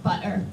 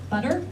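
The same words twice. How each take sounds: First: The middle T is a glottal stop. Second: The middle T is a quick tap. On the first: This is how some British speakers say it. "they put a glottal stop in there" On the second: This is how American speakers say it. "we make this little thing called a tap butter in American English"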